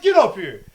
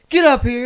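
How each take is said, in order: First: Loud order, a little less high; coach's command. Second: Loud snapped order; coach's command. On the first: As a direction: summon him loudly. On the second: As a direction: call him over sharply. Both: Retold or imitated. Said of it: "He's like".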